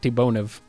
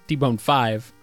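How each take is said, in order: First: The name ends with the letter V. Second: The name ends with the number five. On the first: The speaker calls it wrong. "not T-Bonev" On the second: The speaker calls it right. "was T-Bone 5"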